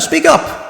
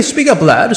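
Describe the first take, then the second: First: Much higher, sharp shout of Speak up!; impatient shout. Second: Mild request. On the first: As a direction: bark Speak up! at the witness. Juror demands louder answer. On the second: Juror asks mildly first. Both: Acted.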